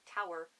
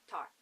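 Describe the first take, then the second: First: The word is said at an ordinary, unhurried pace. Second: The word is squeezed very fast into one syllable.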